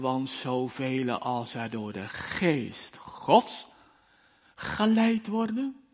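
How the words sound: The word geest gets strong contrastive stress.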